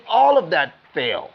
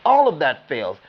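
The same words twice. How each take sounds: The two takes are said the same way.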